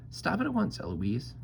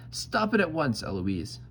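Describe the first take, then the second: First: Very high mocking echo; Eloise mimicking. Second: Raised, cross command dropping on the name; madder. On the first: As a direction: parrot the angry tutor up high. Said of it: "And then I say". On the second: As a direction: tutor losing patience, pitched up. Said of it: "he gets madder and says". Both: A narrator's reading.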